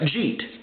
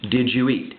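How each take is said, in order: First: The words are squeezed into one short syllable. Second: Each word is pronounced separately and fully.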